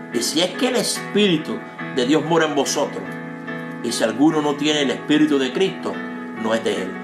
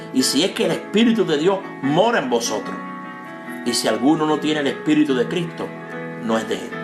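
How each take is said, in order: No difference in how they are said.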